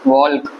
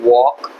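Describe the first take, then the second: First: An l sound is heard before the k. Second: No l sound is heard in the word. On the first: The speaker calls it wrong. "ऐसा आप कोई बोले नहीं होंगे" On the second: The speaker calls it right. "एल silent होता है"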